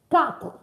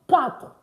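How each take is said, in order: Both takes have the same delivery.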